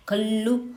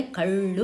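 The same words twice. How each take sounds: First: కళ్ళు with a plain dental ల్ల, kallu; wrong pronunciation. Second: కళ్ళు with a retroflex curled-tongue ళ్ళ, kaḷḷu; correct pronunciation. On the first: Teacher showing children the wrong way to say కళ్ళు. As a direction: say కళ్ళు with the tongue flat behind the teeth. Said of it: "కళ్ళు అని చదవకూడదు". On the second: Teacher showing children how కళ్ళు should sound. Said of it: "కళ్ళు అని చదవాలి". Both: Shown as a demonstration.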